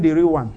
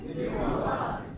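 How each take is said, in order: First: Said in the usual way. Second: Breathy whispered repeat; whispered echo of the quote. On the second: Acted. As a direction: breathe the words out.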